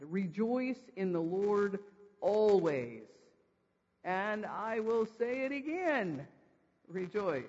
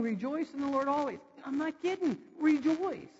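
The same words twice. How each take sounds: First: Slow, measured scriptural command; deliberate command. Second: High, emphatic command; foot-stomping insistence. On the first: Preacher reading Paul's repeated command to the congregation, slow and deliberate. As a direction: read it out slowly, stretching the phrases. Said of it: "the repeat of this command". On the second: Preacher voicing Paul repeating his command, insistent and emphatic. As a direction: stamp it out like you mean it. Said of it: "He's stomping his foot down". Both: Acted.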